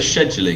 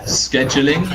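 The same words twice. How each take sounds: First: The word begins with an sh sound. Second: The word begins with an sk sound. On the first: "sh do people say scheduling?" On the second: "st scheduling"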